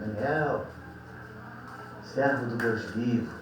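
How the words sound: It is said in a quiet, sad voice.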